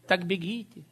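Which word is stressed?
бегите. The stress falls on the word бегите. Simply run because you were told to. The speaker calls it wrong. "они читали"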